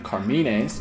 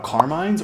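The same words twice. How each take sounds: First: The name is pronounced in an Italian way. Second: The name is pronounced in a plain English way.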